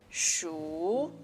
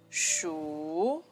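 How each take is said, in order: First: The pitch rises through the syllable. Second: The pitch rises through the syllable.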